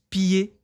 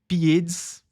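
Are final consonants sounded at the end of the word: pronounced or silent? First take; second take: silent; pronounced. First: The word ends in a vowel, no final consonants. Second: The word ends with audible final consonant sounds. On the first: The speaker calls it right. "É apenas pied" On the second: The speaker calls it wrong. "não é pieds"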